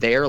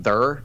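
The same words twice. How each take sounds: First: Said in the usual way. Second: "there" said with an "ur" vowel, as "thurr"; "there" turned into a drawled-R "thurr". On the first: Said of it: "I say the word there". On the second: Shown as a demonstration. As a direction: rhyme "there" with "her". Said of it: "as if I were [name]".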